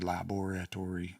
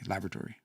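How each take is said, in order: First: Every syllable is pronounced in full. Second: Some syllables are dropped in a shortened form. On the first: The speaker calls it wrong. "We don't say laboratory" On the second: The speaker calls it right. "we say laboratory ... shorten things all the time"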